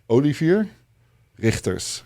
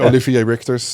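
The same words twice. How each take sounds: First: The name is said with Dutch pronunciation. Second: The name is said with American pronunciation. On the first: "That's how you say it in Dutch" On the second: "Americans say"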